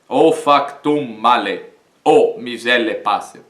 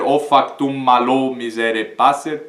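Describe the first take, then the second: First: Male and o are said as separate words. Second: Male and o merge into one syllable. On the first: The speaker calls it right. "Por aqui eu não elido" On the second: The speaker calls it wrong. "Eu não vou dizer"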